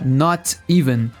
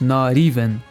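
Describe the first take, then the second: First: The T is said as a clear hard T. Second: The T is said as a soft R-like flap. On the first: The speaker calls it wrong. "com esse som de T mesmo" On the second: The speaker calls it right. "dizemos not even"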